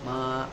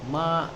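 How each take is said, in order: First: The pitch stays high and level, held long. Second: The pitch dips low, then rises again. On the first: It means mother. "nada pertama itu yang suara datar tuh, yang suara tinggi, datar tapi panjang" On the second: It means horse. "nadanya yang dari setengah ke rendah, kemudian naik"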